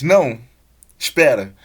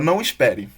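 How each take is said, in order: First: There is a pause after "não". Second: There is no pause after "não".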